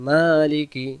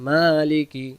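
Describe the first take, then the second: The two takes are said the same way.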